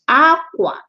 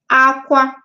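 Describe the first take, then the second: First: It has the tone pattern meaning cloth. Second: It has the tone pattern meaning cry. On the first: It means cloth. "While that one is aqua. Aqua, so cloth" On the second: It means to cry. "aqua, aqua, cry"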